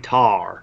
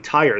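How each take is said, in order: First: It is said with a Southern accent. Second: It is said with a standard accent.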